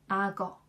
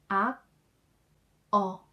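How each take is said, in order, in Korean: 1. 받침이 다음 음절로 이어져서 발음돼요. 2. 각 음절을 따로, 이어지지 않게 발음해요.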